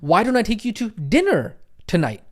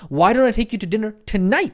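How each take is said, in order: First: The word dinner carries the emphasis. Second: The word tonight carries the emphasis. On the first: "Tonality on the word dinner" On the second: "Tonality in the word tonight"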